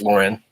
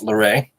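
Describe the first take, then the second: First: The name is said the American English way. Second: The name is said the French Canadian way. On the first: "American English, it's Lauren" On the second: "French Canadian, it's Loray"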